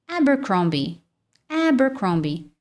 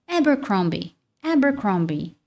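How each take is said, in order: Both takes have the same delivery.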